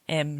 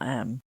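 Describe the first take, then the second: First: The name sounds like the letter M. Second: The name sounds like the word 'am'. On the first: The speaker calls it right. "My name's M" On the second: The speaker calls it wrong. "not Am"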